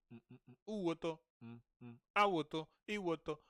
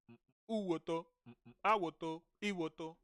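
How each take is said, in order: Both takes have the same delivery.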